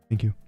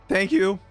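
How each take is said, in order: First: It is said very softly, barely audible. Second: It is said loudly and forcefully. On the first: The listener may not hear the thanks. "I say it so quietly that I don't even know if they heard me" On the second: The thanks sounds unnatural and robotic. "I gotta say it louder this time"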